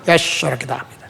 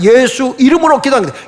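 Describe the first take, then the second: First: It is said slurred in a Gyeongsang accent. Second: It is said clearly in a standard accent. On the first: The speaker calls it wrong. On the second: The speaker calls it right.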